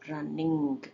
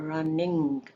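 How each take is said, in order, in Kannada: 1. ಕೊನೆಯ g ಪೂರ್ತಿ ಬಿಡುಗಡೆಯಾಗಿದೆ. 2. ಕೊನೆಯ g ಪೂರ್ತಿ ಬಿಡುಗಡೆಯಾಗಿದೆ.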